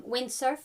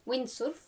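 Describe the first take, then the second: First: Said in the usual way. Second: "windsurf" with a Spanish u and r; Spanishized pronunciation. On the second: Shown as a demonstration. Showing learners a borrowed word, "windsurf" said the Spanish way. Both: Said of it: "words that have been Spanishized".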